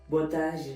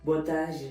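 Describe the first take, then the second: First: It is said in a deep, strong voice. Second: The same.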